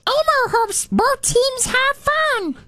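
It is said in an Elmo voice.

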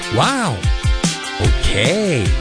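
It sounds flirty.

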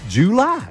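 It is said the Southern way.

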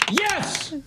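It is said excitedly, like an exclamation.

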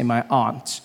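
It is said in a non-American accent.

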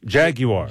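It is said with a British pronunciation.

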